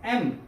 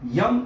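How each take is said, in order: First: It starts with a plain e vowel. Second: It starts with a y sound before the vowel. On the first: The speaker calls it right. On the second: The speaker calls it wrong. "यम नाही"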